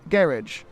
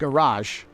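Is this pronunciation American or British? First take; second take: British; American. First: It is said with a British pronunciation. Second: It is said with an American pronunciation. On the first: "they say garage" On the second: "here they don't say math, aluminum, and garage"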